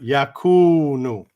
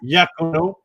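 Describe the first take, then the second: First: The final vowel sounds like 'oo'. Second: The final vowel sounds like 'oh'. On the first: The speaker calls it right. "but Yakunu" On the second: The speaker calls it wrong. "Not Yakuno"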